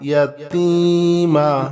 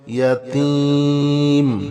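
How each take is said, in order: First: The word ends with a final a vowel. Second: The word ends on the final m consonant. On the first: The reading continues without stopping. "মিম জবর মা" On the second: The reader stops at this word. "থামলে হবে ইয়াতিম"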